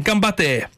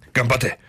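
First: Ganbatte said higher as a lively Japanese cheer, gahm-BAH-teh. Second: Said in the usual way. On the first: Shown as a demonstration. Radio host teaching listeners a Japanese cheer, saying Ganbatte higher as a lively cheer. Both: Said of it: "you know what they say in Japan?".

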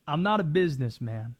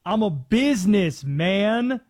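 First: Said in the usual way. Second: "businessman" split as BUSINESS, MAN, loud and slow; stress on businessman. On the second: Acted. Host quoting favorite rap lyric, "businessman" drawn out loud. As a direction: stretch "businessman" into two punched words, business... man.

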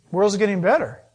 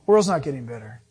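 First: Mock claim. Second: Lower, firm, weight on "not"; firm correction. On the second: Real, not acted. Pastor correcting the quoted claim, lower and firm. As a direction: set them straight on "not".

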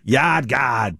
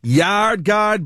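First: Yard Guard in a broad Rhode Island accent with dropped Rs. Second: Said in the usual way. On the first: Shown as a demonstration. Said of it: "say it like a Rhode Islander".

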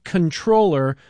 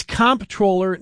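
First: "controller" with an N, con-TROH-ler; "controller" stressed on the second syllable; pronounced like "controller". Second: "comptroller" with the MP sounded, COMP-troller; "comptroller" pronounced COMP-troh-ler; sounded as spelled. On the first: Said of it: "It's just not right". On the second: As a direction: say "comptroller" as written, stress up front. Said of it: "not controller". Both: Retold or imitated.

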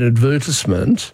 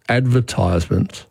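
First: "advertisement" stressed on VER, ad-VER-tis-ment; own pronunciation of advertisement. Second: "advertisement" with "tise" like advertise, AD-ver-tize-ment; producer's pronunciation of advertisement. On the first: Shown as a demonstration. Host saying what he calls it, ad-VER-tisment. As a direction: say "advertisement" with short "tis", stress second syllable. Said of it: "I call an advertisement". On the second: Retold or imitated. Host quoting his producer, AD-ver-tize-ment. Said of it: "another of our producers routinely says".

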